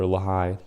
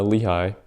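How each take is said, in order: First: "Lehi" with a short uh, then a stressed HIGH; pronounced luh-HIGH. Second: "Lehi" with a clear ee in the first syllable; pronounced LEE-high. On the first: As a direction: say "Lehi" as luh-HIGH, reduced first vowel. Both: Shown as a demonstration. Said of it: "or Lehi".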